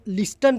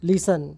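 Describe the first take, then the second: First: The t sound is pronounced in the middle. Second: The t sound is silent in the middle. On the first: The speaker calls it wrong. "कई लोग इसको लिस्टन पढ़ते हैं जबकि ये गलत है" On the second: The speaker calls it right. "सही आंसर है लिसन"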